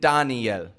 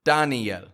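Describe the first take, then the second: No difference in how they are said.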